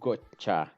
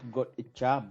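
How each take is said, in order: First: The ch sound is strong and forceful. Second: The ch sound is weak and soft. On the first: The speaker calls it right. "the che sound is very strong" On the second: The speaker calls it wrong. "it is not gotcha"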